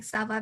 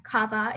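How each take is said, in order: First: "ça va" with a soft s sound for the ç; the correct soft-s "ça va". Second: "kava" with a hard k, like the letter without its mark; the mistaken hard-k "kava"; wrong kava. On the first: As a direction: start "ça va" with a hissed s, not a k. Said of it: "because of the accent below". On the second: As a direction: say "kava" starting with a hard k sound. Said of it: "remember how it's like". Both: Shown as a demonstration.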